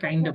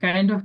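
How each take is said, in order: First: The words are blended into one reduced word. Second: Both words are said fully and separately. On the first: "আমরা kinda বলবো"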